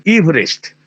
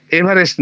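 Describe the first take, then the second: First: ইভরেস্ট said ib-rest with no middle vowel; ইভরেস্ট as two syllables, the correct way; correct pronunciation. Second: এভারেস্ট said e-bha-rest in three syllables; এভারেস্ট in three full syllables, the wrong way; wrong pronunciation. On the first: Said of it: "ওই মাঝখানে ওই ইটার কোনো উচ্চারণ নেই". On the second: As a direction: give এভারেস্ট the Indian e-bha-rest with its middle a. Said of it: "নয়". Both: Shown as a demonstration.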